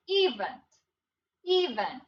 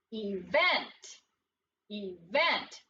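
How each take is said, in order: First: EVENT as EE-vent, first syllable punched, second reduced; stress on first syllable. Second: Event as ee-VENT, second syllable punched; lower-pitched Event, weight on the VENT; stress on second syllable. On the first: Teacher tests a wrong division aloud, stress on first syllable. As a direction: say Event with a long E, stressed up front. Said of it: "listen to what it sounds like". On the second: Teacher models the word for students, stress on second syllable. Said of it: "putting the emphasis or the umph on the second syllable". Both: Shown as a demonstration.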